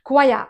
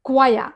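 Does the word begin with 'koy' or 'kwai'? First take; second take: kwai; kwai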